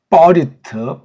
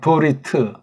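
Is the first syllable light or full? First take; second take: full; light. First: The first consonant carries a full vowel. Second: The first consonant is light, with no vowel.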